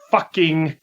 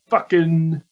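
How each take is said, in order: First: The final G sound is clearly pronounced. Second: The final G sound is dropped. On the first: "With a hard G" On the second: "he didn't pronounce the G"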